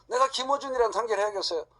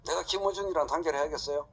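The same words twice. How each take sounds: First: Higher, louder, punching 내가; incredulous higher rhetorical question; emphatic repeat. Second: Said in the usual way. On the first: Real, not acted. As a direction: hit 내가 hard in disbelief.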